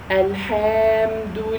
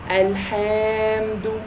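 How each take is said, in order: First: The vowel after the h is long. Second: The same.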